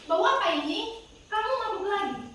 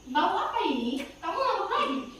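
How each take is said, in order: First: There is a full stop pause between sentences. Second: The sentences flow on with only a short pause.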